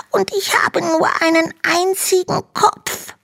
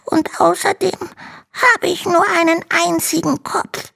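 First: Very high dragon voice, close to tears; a tiny dragon near crying over its single head; tearful little dragon. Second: Very high small dragon voice, no tears; a tiny dragon stating his lack plainly; little dragon voice. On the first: Little dragon tells Hanno his woes, tearful and high. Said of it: "faucht der kleine Drache". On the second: Little dragon reminds Hanno of his one head. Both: Acted.

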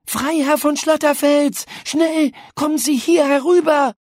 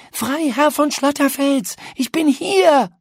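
First: High, loud call across the garden; urgent call. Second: High, loud call stressing von; louder urgent call. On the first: Paula calling the ghost over from behind the tree, urgent high call. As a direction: call him over, quick. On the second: Paula calls the lost ghost a second time, louder and more urgent. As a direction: call again, more insistent. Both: A narrator's reading.

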